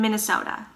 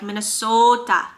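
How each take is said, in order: First: The word is said in an ordinary way. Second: The word has an exaggerated Minnesota accent.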